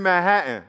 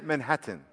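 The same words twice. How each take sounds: First: The T sounds are dropped. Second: The T sounds are pronounced clearly. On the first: The speaker calls it right. "There's no T's" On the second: The speaker calls it wrong. "don't say Manhattan"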